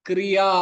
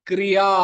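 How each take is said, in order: The two takes are said the same way.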